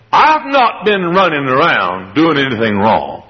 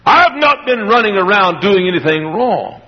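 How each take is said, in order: First: Slow, innocent-sounding lie; sly denial. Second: Said in the usual way. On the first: Acted. Servant lying to his master, slow innocent denial. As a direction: play the liar all innocence. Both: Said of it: "He said".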